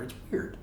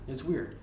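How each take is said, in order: First: Breathy whisper, voice dropped to nothing; whispered aside. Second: Said in the usual way. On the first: Real, not acted. Reviewer whispering his reaction to the dad's line, then repeating it. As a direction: mutter it to yourself under the breath.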